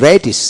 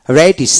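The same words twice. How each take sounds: The two takes are said the same way.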